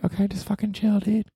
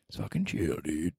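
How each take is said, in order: First: Higher, softer self-scolding; hushed calm-down to himself. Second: Unvoiced whisper to himself; whispered calm-down. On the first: Acted. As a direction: talk yourself down. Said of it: "telling himself to calm down". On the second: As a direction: breathe it out, no voice. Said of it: "repeats, now whispered".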